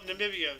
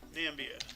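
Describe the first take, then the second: First: The 'i' after 'Nam' is pronounced. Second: The 'i' after 'Nam' is left out. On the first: The speaker calls it right. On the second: The speaker calls it wrong. "Is the I silent?"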